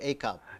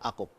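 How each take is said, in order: First: The name is said with an American pronunciation. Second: The name is said with its native Filipino pronunciation. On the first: This is how people abroad said the name. "as the Americans would say" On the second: This is how people at home say the name. "back to uh, to the normal one"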